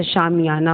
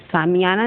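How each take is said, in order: First: शामियाना with a clear sh at the start; teacher models it right: शामियाना; शामियाना, sh sound; correct sh sound. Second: सामियाना with a dental s at the start; teacher shows the mistake: सामियाना; सामियाना, s not sh; wrong s sound. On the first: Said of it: "होता है". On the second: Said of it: "नहीं होता". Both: Shown as a demonstration.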